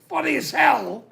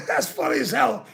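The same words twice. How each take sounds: First: High, emphatic quoted insistence; retold insistence. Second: Said through a real laugh, quick. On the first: Quoting himself telling friends the joke is funny, raised and emphatic. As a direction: insist it's hilarious like he told them. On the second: Real, not acted. Repeating the line to the chat, laughing as he says it, quick. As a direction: laugh it out as you say it.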